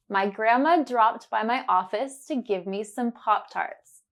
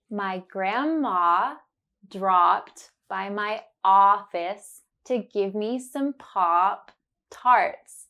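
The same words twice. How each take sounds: First: Said in the usual way. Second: Slow, deliberate, every ah clear; slow and careful. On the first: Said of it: "you will hear it naturally". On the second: Shown as a demonstration. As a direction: spell it out slowly for the learner. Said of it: "say it slowly and focus on the sound".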